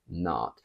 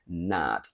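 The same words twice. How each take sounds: First: The vowel is long. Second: The vowel is short. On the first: "I went more for the one sound, the R" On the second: "I never really said not"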